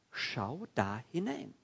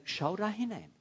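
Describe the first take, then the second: First: Drawn-out, word-by-word urging; slow, deliberate invitation to look; slow emphatic repeat. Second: Said in the usual way. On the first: Acted. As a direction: stretch out SCHAU, DA and HINEIN, each on its own. Same command repeated slowly for emphasis.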